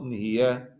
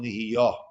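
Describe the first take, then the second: First: The final vowel is an eh sound. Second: The final vowel is an open ah sound. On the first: The speaker calls it right. "with the segel, the eh sound" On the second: The speaker calls it wrong.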